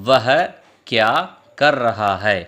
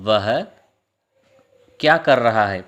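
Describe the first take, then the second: Both takes have the same delivery.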